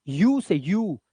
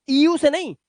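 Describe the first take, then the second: First: यू said as a clear yoo, low and drawn; sound yu. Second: Said in the usual way. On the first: Shown as a demonstration. Teacher to students, showing यू, not ईयू. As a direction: model यू as a plain yoo sound.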